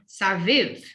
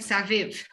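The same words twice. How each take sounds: First: The vowel before the final v is long. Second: The vowel before the final v is short. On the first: The speaker calls it right. "we say Saviv. It just elongates the E" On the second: The speaker calls it wrong. "Instead of saying Saviv"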